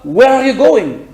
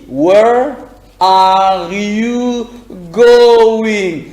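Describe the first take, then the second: First: It is said very fast. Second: It is said at normal speed.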